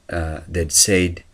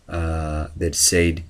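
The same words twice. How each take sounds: No difference in how they are said.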